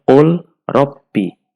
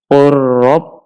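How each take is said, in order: First: The L is pronounced on its own. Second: The L merges into a doubled R. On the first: The speaker calls it wrong. "jangan dibaca" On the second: The speaker calls it right. "lamnya dimasukkan ke huruf ro, kemudian ro-nya ditasydid"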